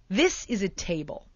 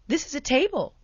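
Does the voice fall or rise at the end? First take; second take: fall; rise. First: The voice falls at the end like a statement. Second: The voice rises at the end like a question. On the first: It is stated with confidence. "the sound of statements" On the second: It seeks the listener's agreement. "we'll do it as a question"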